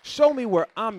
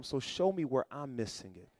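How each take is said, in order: First: Higher and louder, crying out to God; loud plea. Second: Soft prayer. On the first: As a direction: lift the plea up high. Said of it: "prayer repeated louder". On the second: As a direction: murmur the plea to the Lord. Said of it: "prayer quoted, then repeated". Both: Shown as a demonstration.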